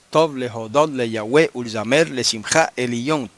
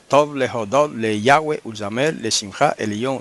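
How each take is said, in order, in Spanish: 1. Yahweh lleva el acento en su última sílaba. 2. Yahweh lleva el acento en su primera sílaba. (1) "Lo correcto es ... El acento tiene que ir al final" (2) "Se dañó"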